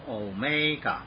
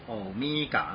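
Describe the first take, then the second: First: Omega is pronounced the Greek way. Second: Omega is pronounced the English way. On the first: The speaker calls it right. "希腊文是omega" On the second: The speaker calls it wrong. "千万不要读omega，那是英文啊"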